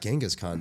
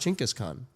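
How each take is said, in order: First: The name is said as Genghis Khan. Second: The name is said as Chinggis Khan. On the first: The speaker calls it wrong. "it's not Genghis Khan" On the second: The speaker calls it right. "It's actually pronounced Chinggis Khan"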